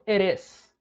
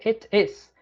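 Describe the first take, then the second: First: The two words are linked together. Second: The two words are said separately. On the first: The speaker calls it right. "quando esses dois são pronunciados juntos" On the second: The speaker calls it wrong. "não fica it is"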